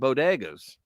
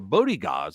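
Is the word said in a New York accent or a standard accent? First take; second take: standard; New York. First: It is said with a plain, standard pronunciation. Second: It is said with a New York style pronunciation.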